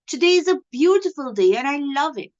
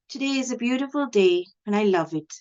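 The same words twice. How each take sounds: First: The voice stays at a higher, normal pitch. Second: The voice drops to a lower pitch. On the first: "The first sentence I said was" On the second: "my voice is suddenly dropping. It's a little lower"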